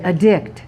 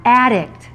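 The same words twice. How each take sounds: First: "Addict" stressed on the second syllable; "Addict" as a verb, weak first vowel. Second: "Addict" stressed on the first syllable; "Addict" as a noun, front-stressed. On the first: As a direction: say "Addict" as uh-DICT. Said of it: "What's the verb?". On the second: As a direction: say "Addict" as AD-dict, full first vowel. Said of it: "Here's the noun". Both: Shown as a demonstration.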